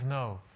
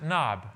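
First: The name is said with its Hebrew pronunciation. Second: The name is said as English spelling suggests. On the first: The speaker calls it right. "in Hebrew, it actually is Nob" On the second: The speaker calls it wrong. "it looks like we should pronounce it Nob"

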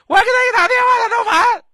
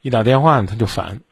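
First: It is said in a high, loud voice. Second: It is said in a low, calm voice.

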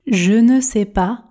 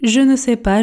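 First: It is spoken slowly with careful articulation. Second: It is spoken at a normal conversational speed. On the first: "On commence à la vitesse tortue, objectif, articulation" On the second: "Vitesse standard maintenant"

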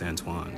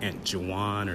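First: The first syllable runs on through the U sound. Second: The name splits as 'aunt' then 'juwan'. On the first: The speaker calls it right. "it carries on after the U instead of after the J" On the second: The speaker calls it wrong. "it's not like Aunt Juwan or something like that"

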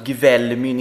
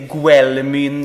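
First: The name begins with a hard g then v. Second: The name begins with a hard g then w. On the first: The speaker calls it right. "mitt nick är alltså Gvälmyn" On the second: The speaker calls it wrong. "inte Gwälmyn"

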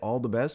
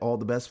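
First: It is said in a warm, sincere tone. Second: It is said in a cold, sarcastic tone. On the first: The speaker genuinely wishes the other person well. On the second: The speaker is really telling the other person off.

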